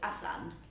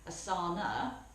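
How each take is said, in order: First: The word ends without a final vowel. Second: The word ends with a final vowel. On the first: This is a central Indian regional form. "they don't add the A onto the end" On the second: This form was learned in another Indian region. "they added an A onto the end"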